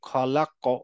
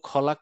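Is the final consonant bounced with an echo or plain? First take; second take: bounced; plain. First: The final consonant bounces with a short echo. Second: The final consonant ends plainly without any echo. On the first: The speaker calls it right. "ওটা দুইবার উচ্চারণ করার মতো একটা ইকো ইকো টাইপের একটা আওয়াজ" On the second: The speaker calls it wrong. "শুধু খলাক না বলে"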